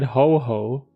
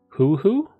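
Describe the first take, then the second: First: The vowel is a plain o sound. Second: The vowel sounds like the u in burn. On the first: The speaker calls it wrong. "my pronunciation is bad. So I said ho ho" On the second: The speaker calls it right. "So the O is like the U"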